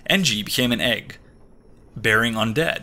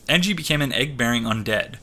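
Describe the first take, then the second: First: There is a pause between egg and bearing. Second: Egg and bearing run together without a pause. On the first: The words are read as if split by a dash. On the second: Egg-bearing describes the undead.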